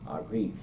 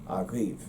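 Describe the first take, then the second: First: The stress is on the second syllable. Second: The same.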